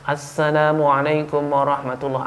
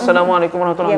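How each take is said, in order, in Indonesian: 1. Diawali dengan bunyi artikel 'as'. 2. Diawali tanpa bunyi artikel 'as'. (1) "Ada asnya" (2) "Tidak ada asnya"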